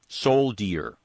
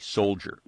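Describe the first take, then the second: First: The middle consonant is a hard, plain D. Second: The middle consonant is soft, almost a J. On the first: This is how it was pronounced in an earlier era. "with a hard D" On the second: This is how it is pronounced today. "with a soft D, almost a J"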